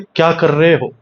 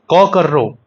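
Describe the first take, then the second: First: It is said in Delhi Hindi. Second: It is said in Bundelkhandi Hindi, with an o sound.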